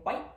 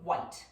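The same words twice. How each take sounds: First: The final T is dropped. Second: The final T is pronounced.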